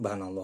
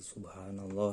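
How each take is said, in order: First: The phrase is rushed and clipped short. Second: The phrase is said slowly and fully. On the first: The speaker calls it wrong. "kalau dicepat-cepat mah banallah" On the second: The speaker calls it right. "Harus tartil"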